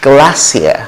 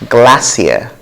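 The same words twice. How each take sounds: Both takes have the same delivery.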